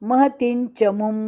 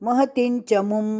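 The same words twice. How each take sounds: No difference in how they are said.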